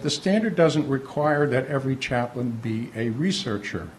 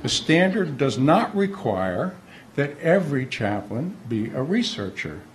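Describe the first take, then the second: First: It is said at a normal pace. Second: It is said slowly and deliberately.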